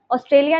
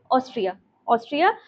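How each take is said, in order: First: ऑस्ट्रेलिया said as the common mix-up; ऑस्ट्रेलिया as the name to avoid; wrong name warned against. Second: ऑस्ट्रिया said twice, clearly and without the extra syllable; ऑस्ट्रिया repeated as the right answer; correct name repeated. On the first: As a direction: voice the mistake ऑस्ट्रेलिया to rule it out. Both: Shown as a demonstration. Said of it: "ऑस्ट्रेलिया नहीं".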